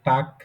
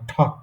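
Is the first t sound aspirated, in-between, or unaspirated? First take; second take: unaspirated; aspirated. First: The first t sound is plain and unaspirated. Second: The first t sound is fully aspirated. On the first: "এটা টাক এরকমও না" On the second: "আবার ঠক এরকমও না"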